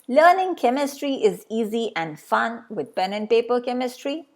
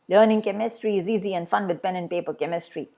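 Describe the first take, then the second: First: The sentence is read slowly. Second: The sentence is read a little faster. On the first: "reading this sentence slowly" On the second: "and then maybe a little fast"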